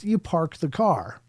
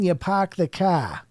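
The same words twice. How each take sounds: First: It is said in a Midwestern accent. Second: It is said in a Boston accent. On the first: "If you're in the Midwest" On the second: "If you're in Boston"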